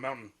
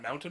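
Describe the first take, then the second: First: The T in the middle is dropped. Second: The T in the middle is clearly pronounced. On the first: "then I sort of drop the T" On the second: "I'll say it like that"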